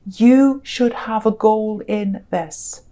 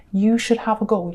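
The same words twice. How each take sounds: First: Each word set apart, slow and deliberate; slow emphatic stress. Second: Said in the usual way. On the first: Real, not acted. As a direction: lean into every word of you should have a goal in this. Stressing the need for goals.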